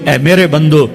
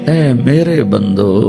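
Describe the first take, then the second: First: It is said in a plain, unaffectionate tone. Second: It is said in a tender, loving tone. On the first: The speaker calls it wrong. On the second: The speaker calls it right.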